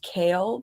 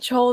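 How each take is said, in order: First: The name starts with a k sound. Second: The name starts with a ch sound. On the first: "it's pronounced Kale"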